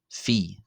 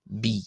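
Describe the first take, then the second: First: The letter name begins with an F sound. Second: The letter name begins with a B sound. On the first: This follows the more modern pronunciation tradition. "in the Greco-Boharic or more modern pronunciation as Phi" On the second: This follows the older pronunciation tradition. "in the old Boharic pronunciation, which I intend to use, this is pronounced as B"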